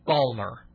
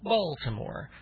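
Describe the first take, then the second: First: It is drawled and shortened to two syllables. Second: All three syllables are pronounced fully. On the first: This is how locals say it. "they drawl it. They kind of go" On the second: This is how outsiders say it. "Because Outsiders, it's Baltimore"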